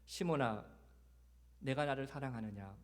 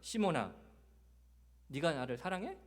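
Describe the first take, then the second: First: It sounds tender and heartfelt. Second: It sounds doubting and challenging.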